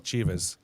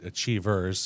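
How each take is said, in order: First: The R sound is dropped. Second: The R sound is clearly pronounced. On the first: This is how locals say it. "we pronounce it Achievers ... drop the R's" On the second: This is how a non-local says it. "you pronounce it Achievers"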